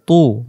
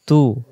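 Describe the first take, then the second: First: Thick "তু" with rounded mouth; heavy rounded tu. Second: Light "তু" without rounding the mouth; thin tu. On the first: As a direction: say "তু" as an emphatic Arabic t. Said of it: "মুখটা গোল হবে". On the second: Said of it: "তু, পাতলা আওয়াজে পড়ব". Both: Shown as a demonstration.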